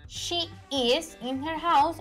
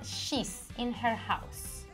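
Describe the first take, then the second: First: The words are said fully as she is. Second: The words are contracted into one syllable, she's.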